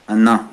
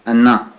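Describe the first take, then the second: No difference in how they are said.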